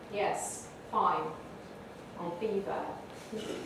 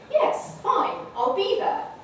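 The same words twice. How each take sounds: First: It ends in a low, flat fall. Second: It ends in a high, lively fall. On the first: The person does not want to meet. "This person does not want to come" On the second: The person is looking forward to meeting. "So we're all looking forward to it"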